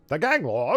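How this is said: It is read in an old-fashioned announcer voice.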